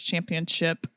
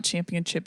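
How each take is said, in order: First: Said in the usual way. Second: CHAMPIONSHIP ending in "chip", with a ch; wrong ending, "chip". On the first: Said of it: "it's championship". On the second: Retold or imitated. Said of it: "it's not championship".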